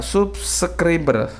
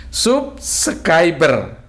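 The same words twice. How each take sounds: First: Subscriber said slowly as sup-se-kri-ber; unsure reading of an English word; stumbling over a word. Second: Subscriber drawn out very slowly as sup-se-kai-ber; puzzled attempt at an English word; careful retry. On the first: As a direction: sound out subscriber syllable by syllable, unsure. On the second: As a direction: stretch subscriber out, testing how to read it. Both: Real, not acted. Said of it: "apa bacanya ini?".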